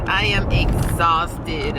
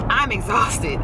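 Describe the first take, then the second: First: I am exhausted, AM stressed and slowed; slow emphatic. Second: Said in the usual way. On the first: Shown as a demonstration. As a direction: lean on AM in I am exhausted.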